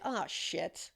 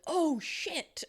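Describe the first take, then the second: First: Softer, falling "Oh, shit"; dismayed oh shit. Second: High, alarmed "Oh, shit"; startled oh shit. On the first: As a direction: let it sink, like a minor mishap. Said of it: "many different ways in which you would say that". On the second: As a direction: blurt it high, as if startled by something. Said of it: "has anyone asked them, like, did he go". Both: Shown as a demonstration.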